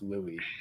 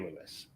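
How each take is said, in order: First: The name ends in an ee sound, no s. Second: The name ends with a clear s sound. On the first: "I S pronounced as E sometimes" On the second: "but it could be Lewis"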